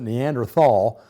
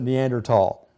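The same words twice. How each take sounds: First: The middle consonant is a soft th sound. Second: The middle consonant is a hard t sound. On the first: This is the older pronunciation. "the spelling of it used to have an H, and we all, all pronounce it Neanderthal" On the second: This is the current pronunciation. "that H has been eliminated ... And so we now pronounce it Neanderthal"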